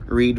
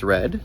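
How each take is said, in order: First: "Read" said /riːd/, rhymes with need; "Read" long ee vowel, present tense; read as reed. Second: "read" said /rɛd/, rhymes with bed; "read" short e vowel, past tense; read as red. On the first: Teacher contrasting the two readings, says "Read" like reed. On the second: Teacher contrasting the two readings, says "read" like red. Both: Shown as a demonstration. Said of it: "Read versus read".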